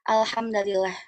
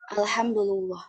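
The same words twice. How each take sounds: First: The d takes a, the l takes i. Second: The d takes u, the l takes u. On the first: "dengan menasabkan eh, huruf dalnya" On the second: "mendomahkan dalnya dan eh, lamnya juga"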